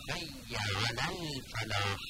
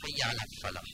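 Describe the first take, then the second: First: الفلاح slow, with a distinct held l; clear lam. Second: الفلاح with the l merged into f; wrong merged lam. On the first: Teacher models careful reading for students, clear lam. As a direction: sound the l fully before f in الفلاح. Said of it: "با عنایت این لام رو تلفظ کنید". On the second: Teacher shows what cannot be said, merged lam. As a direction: swallow the l of الفلاح into the f. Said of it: "نمیشه بگیم". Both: Shown as a demonstration.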